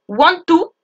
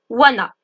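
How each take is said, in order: First: Want and to are said as two full words. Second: The two words are run together as wanna. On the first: "want to va devenir wanna" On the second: "want to va devenir wanna"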